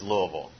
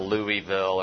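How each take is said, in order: First: The syllables of the name are slurred together. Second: Each syllable of the name is said distinctly. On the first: The speaker calls it right. "Just sort of just slur it all together" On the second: The speaker calls it wrong. "It's not Louisville or anything like that"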